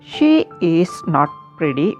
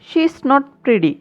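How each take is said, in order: First: Every word is said in full, uncontracted. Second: The words she is are contracted to she's.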